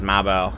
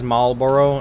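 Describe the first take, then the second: First: The word is shortened with fewer syllables. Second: The word is said in full with all syllables. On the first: This is how local people say it. The speaker calls it right. "everyone says Marlboro ... Now they shorten it. That thick uh, northeastern accent" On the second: Local people never say it this way. The speaker calls it wrong. "No one says Marlboro"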